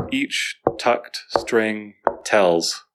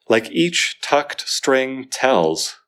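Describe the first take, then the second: First: Very slow, each tucked string tells all stressed; four heavy beats in a row; stress every word. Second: Slow, every word weighted; heavy even stresses; slow stressed reading. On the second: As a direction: lean on each tucked string tells. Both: Shown as a demonstration. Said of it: "a lot of stresses".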